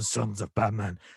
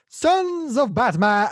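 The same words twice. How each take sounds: First: It is said in a low, gravelly voice. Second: It is said in a high-pitched voice.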